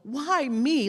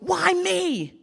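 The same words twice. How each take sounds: First: It sounds like a mild, puzzled complaint. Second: It sounds like an intense, exaggerated lament.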